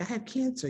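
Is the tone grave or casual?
casual. It is said in a light, casual tone.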